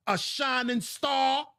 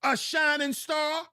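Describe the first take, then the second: First: Drawn-out mocking disbelief, slow; sarcastic question. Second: Higher, slow mocking disbelief; incredulous repeat. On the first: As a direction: ask it as a slow scornful joke. Sarcastic question about boy's future. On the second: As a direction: repeat it higher as if it were absurd. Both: Real, not acted.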